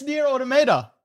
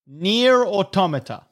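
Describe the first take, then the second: First: "Automata" as auto-MAY-duh, pitched high; American pronunciation. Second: "Automata" as aw-TOM-uh-tuh; British pronunciation. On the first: Friend confirms the research, American pronunciation of "Automata" as auto-MAY-duh. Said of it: "pronunciation is Nier Automata". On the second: Friend demonstrates the looked-up word, British pronunciation of "Automata" as aw-TOM-uh-tuh. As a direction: stress the TOM in "Automata", slowly. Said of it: "that's the British pronunciation". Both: Shown as a demonstration.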